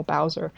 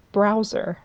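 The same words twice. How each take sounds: First: Said in the usual way. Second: "Browser" with an R after the B; slipped-in R. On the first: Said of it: "not to call Bowser Browser". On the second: Shown as a demonstration. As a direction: say "Browser", an R slipped into Bowser's name. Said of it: "which is what I call him".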